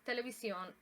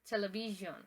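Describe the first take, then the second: First: It is pronounced the Spanish way. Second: It is pronounced the English way. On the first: "televisión in Spanish" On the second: "television in English"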